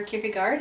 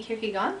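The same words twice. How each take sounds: First: Kierkegaard said the American way; American pronunciation. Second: Kierkegaard said the Danish way; Danish-style pronunciation. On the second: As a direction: say Kierkegaard as a Dane would, not Americanized. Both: Shown as a demonstration. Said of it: "as we say here in America".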